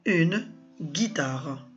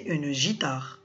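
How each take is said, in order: First: The first consonant is a hard g sound. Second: The first consonant is a soft zh sound. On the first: The speaker calls it right. "il y a le U pour casser le son je et nous donner le ge" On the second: The speaker calls it wrong. "on va la prononcer une gitare. Et c'est faux"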